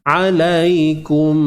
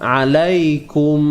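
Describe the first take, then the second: The two takes are said the same way.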